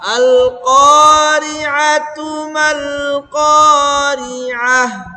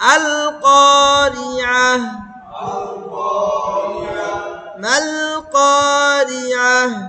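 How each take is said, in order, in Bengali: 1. শব্দগুলো কোনো বিরতি ছাড়াই একসাথে পড়া হয়। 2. প্রথম শব্দ আল-কারিআহর পরে একটি বিরতি আসে। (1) "যদি একসাথে মিলে পড়ি তাহলে তু হবে এটা।" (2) "আবার ভেঙ্গে ভেঙ্গেও পড়া যাবে।"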